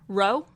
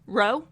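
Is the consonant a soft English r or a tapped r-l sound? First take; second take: English r; English r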